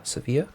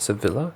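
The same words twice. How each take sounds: First: "Sevilla" with silent Ls, se-VEE-ya, rising; questioned correct pronunciation. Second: "Sevilla" said with an audible L, se-VILL-a; wrong pronunciation. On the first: Player checking a city name, "Sevilla" as se-VEE-a. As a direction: ask "Sevilla" tentatively, ending in ee-a. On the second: Player checking a city name, "Sevilla" with a hard L sound. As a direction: say "Sevilla" as English spelling reads, L sounded. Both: Shown as a demonstration. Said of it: "That's how you pronounce that".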